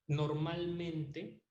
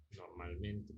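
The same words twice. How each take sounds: First: Normalmente stretched slow with a rising end; drawn-out normalmente. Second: Normalmente dropped low and soft as an afterthought; quiet aside. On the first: Teacher to class, stretching normalmente slowly with a rise. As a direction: linger on normalmente and lift it at the end. Teacher stresses a hedge word. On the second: Teacher to class, repeating Normalmente softly under the breath. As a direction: murmur Normalmente back to yourself. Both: Shown as a demonstration.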